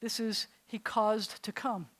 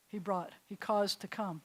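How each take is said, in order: First: "caused" stretched and leaned on, slowly; teacher slowing down to stress "caused". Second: Said in the usual way. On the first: Shown as a demonstration. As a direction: spell out "he caused to come" slowly, hitting "caused". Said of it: "If the word means come".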